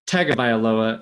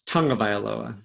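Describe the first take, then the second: First: The second syllable is said without an ng sound. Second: The second syllable is said with an ng sound. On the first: The speaker calls it wrong. "it's not Tagovailoa" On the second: The speaker calls it right. "it's Tungavailoa"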